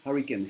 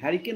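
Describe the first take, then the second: First: The first vowel is like the one in 'hut'. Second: The first vowel is like the one in 'cat'. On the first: The speaker calls it right. "এটা হচ্ছে হারিকেন" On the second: The speaker calls it wrong. "হ্যারিকেন নয় কিন্তু"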